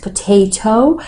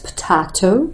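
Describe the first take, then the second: First: It is said in an American accent. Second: It is said in a British accent. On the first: "and American pronunciation it's potato" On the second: "When people are learning the British pronunciation, they say it's potato"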